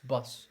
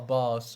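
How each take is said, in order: First: The vowel is the short u of bus. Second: The vowel sounds like the o in boss. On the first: The speaker calls it right. "That's bus" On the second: The speaker calls it wrong. "you pronounce it like uh, ba boss or something"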